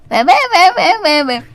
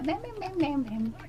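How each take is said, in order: First: It is said loudly. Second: It is said quietly.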